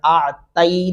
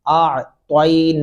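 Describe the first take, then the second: First: The t sound is plain and light. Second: The t sound is emphatic with rounded lips. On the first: The speaker calls it wrong. "आ तई नहीं करना" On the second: The speaker calls it right. "त्वा उस सूरत में पढ़ा जाएगा जब आप होंठों को गुलाई शक्ल में लाएंगे"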